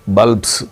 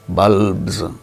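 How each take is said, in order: First: The final sound is a hissing s. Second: The final sound is a buzzing z. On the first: The speaker calls it wrong. "not bulbs" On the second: The speaker calls it right. "It is a voiced sound"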